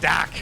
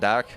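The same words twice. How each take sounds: First: The name is said in a Boston accent. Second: The name is said in an Irish accent. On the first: "there's the Boston pronunciation" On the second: "I don't know if that's the Irish pronunciation"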